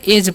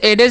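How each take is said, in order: First: The d sound is left silent. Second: The d sound is clearly pronounced. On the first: The speaker calls it right. "एज पढ़ना है। यहाँ पर D silent होता है" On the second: The speaker calls it wrong. "इसे एडेज नहीं पढ़ना है"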